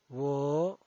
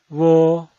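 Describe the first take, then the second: First: The pitch rises from mid to high. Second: The pitch stays high and level. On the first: "El segundo tono es ascendiente" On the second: "El primer tono es alto y sostenido"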